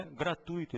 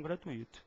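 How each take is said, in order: First: Gratuito stressed on TUI; correct pronunciation. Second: Gratuito split as gra-tu-Í-to; wrong pronunciation. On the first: Teacher confirms the right form, gratuito stressed on the U. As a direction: say gratuito as gra-TÚI-to. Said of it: "é porque o certo é". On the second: Teacher repeats what not to say, gratuito stressed on I. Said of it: "e não gratuito". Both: Shown as a demonstration.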